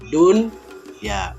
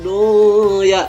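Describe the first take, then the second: First: The n sound is pronounced clearly before the y. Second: The n sound is dropped before the y. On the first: The speaker calls it right. "the right way is dun ya" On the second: The speaker calls it wrong. "bukan dibaca do ya"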